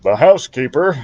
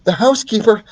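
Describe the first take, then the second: First: The wrong character's voice. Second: Higher flustered mother; corrected to the mother's voice; mother mouse voice. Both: Acted. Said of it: "wrong voice".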